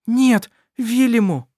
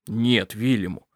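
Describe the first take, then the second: First: High, loud, slow cry; exclaiming. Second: Said in the usual way. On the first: A narrator's reading. Mother exclaiming to stop Vilyamu, loud. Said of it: "воскликнула Эрмелин". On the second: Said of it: "сказал Калиб".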